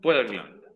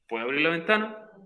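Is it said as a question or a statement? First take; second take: statement; question. First: It is said with a flat statement tune. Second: It is said with a questioning tune. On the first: The speaker claims the ability to do it. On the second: The speaker asks for permission.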